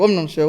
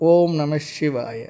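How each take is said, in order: First: It is said quickly, with repetitions run together. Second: It is said slowly, with a pause between repetitions. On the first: The mind becomes even more hurried. The speaker calls it wrong. "இப்படி சொன்னால் இன்னும் வேகம் அதிகமாக தான் போகும்" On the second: The mind is calmed. The speaker calls it right. "ஜெபம் பண்ண பொழுது கூட பொறுமையாக சொல்லணும்"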